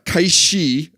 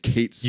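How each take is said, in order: First: The second word ends in an 'ee' sound. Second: The second word ends in a 'th' sound.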